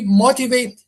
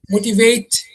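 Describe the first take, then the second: First: The stress is on the first syllable. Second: The stress is on a later syllable. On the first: The speaker calls it right. "You say motivate" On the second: The speaker calls it wrong. "You do not say motivate"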